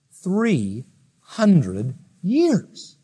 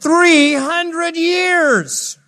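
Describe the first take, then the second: First: Very slowly stretched words; drawn-out awe. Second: Much higher, louder and very slow; huge awe. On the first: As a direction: linger on each word in amazement. Amazed at Enoch's span. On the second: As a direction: sing out the years in wonder. Repeated with amazement. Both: Shown as a demonstration.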